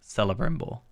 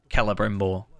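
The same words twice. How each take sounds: First: The name begins with a soft S sound. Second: The name begins with a hard K sound. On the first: "rather than Celebrimbor" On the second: "Where it's like a Ke, like Celebrimbor"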